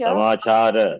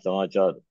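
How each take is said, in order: First: The word ends with a final 'a' vowel. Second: The word ends without a final vowel. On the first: The speaker calls it right. "Samachara, not samachar" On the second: The speaker calls it wrong. "not samachar"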